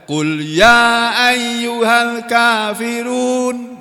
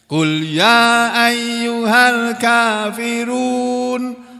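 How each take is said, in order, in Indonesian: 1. Vokal terakhir kafirun dibaca sebentar. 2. Vokal terakhir kafirun dibaca lebih panjang. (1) "gitu aja boleh, tapi kurang bagus" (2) "agak panjang dikit ya"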